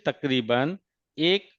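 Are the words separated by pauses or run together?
separated. Each word is finished before a short pause. The speaker calls it right. "इस तरह से पढ़ते हैं"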